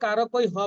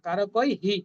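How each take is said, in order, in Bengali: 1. শব্দটি খালি h ধ্বনি দিয়ে শেষ হয়। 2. শব্দটি h ধ্বনির সঙ্গে i ধ্বনি দিয়ে শেষ হয়। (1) "আমরা কিন্তু কারো কই হ বলবো না"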